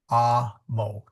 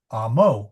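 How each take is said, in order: First: The stress is on the first syllable. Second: The stress is on the second syllable. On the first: The speaker calls it right. "the accent always falls on the first syllable" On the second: The speaker calls it wrong. "not amo"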